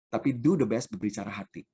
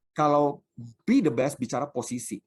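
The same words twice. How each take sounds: First: "do" set low and weighty in "do the best"; stress on do. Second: "be" lifted and leaned on in "be the best"; stress on be. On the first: Congregation hears "do the best" answering "be the best", stress on "do". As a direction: pastor answering "be" with a heavy, low "do". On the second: Congregation hears "be the best" set against "do the best", stress on "be". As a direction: pastor contrasting worldly goals, landing hard on "be". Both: Shown as a demonstration.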